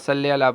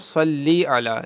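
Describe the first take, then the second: First: The first word ends in a short 'e' vowel. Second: The first word ends in an 'ee' vowel. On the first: The speaker calls it wrong. "सल्ले अला पढ़ते हैं हम" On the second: The speaker calls it right. "इसको पढ़ेंगे सल्ली अला"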